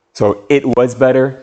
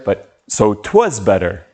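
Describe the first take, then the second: First: Said in the usual way. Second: 'twas better with it was squeezed into one syllable; contracted 'twas. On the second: Shown as a demonstration. Teacher contrasting the full form with the contraction, 'twas in one beat. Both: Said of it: "It was contraction".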